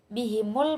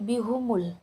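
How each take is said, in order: First: The vowel after h is an i sound. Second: The vowel after h is a u sound. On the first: "ha yang berharokat kasrah" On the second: "membaca dhammah ha"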